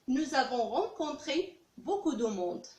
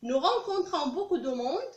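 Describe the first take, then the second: First: Slow, deliberate French past tense; slow model sentence. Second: Slow, deliberate French present tense; slow model sentence. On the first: Teacher contrasting the past sentence for students, slow. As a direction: lay out the past form slowly. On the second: Teacher reading the present sentence for students, slow. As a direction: spell it out slowly for the class. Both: Shown as a demonstration. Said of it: "teacher contrasts present and past".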